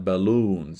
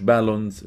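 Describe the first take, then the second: First: "balloons" with a long, drawn-out oo; correct English pronunciation. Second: "بالونز" said the Arabic way, short second vowel; mispronounced balloons. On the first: Teacher correcting students' word, "balloons" pronounced with long oo. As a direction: stretch the second syllable of "balloons". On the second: Teacher showing students the wrong "بالونز", mispronounced with a short ending. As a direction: say "بالونز" quickly with an unstretched ending. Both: Shown as a demonstration. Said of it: "مش بالونز، لا، balloons".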